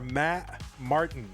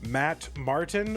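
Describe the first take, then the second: First: The T in Martin becomes a glottal stop. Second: The T in Martin is clearly pronounced.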